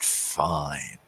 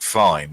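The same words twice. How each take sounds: First: The word is drawn out and savoured. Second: The word is said flatly and quickly. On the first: The speaker calls it right. "kind of savouring the, the idea" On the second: The speaker calls it wrong. "It's not just fine like fine"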